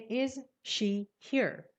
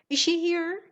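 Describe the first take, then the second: First: Each word is said separately without linking. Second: The first two words run together smoothly. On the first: The speaker calls it wrong. "If you're a beginner, you say is she here?" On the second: The speaker calls it right. "But a native says"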